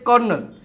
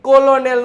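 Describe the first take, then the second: First: It is said with two syllables, 'kernel'. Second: It is said with three syllables, 'col-o-nel'. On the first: The speaker calls it right. "કર્નલ બરોબર છે" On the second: The speaker calls it wrong. "કોલોનેલ નો"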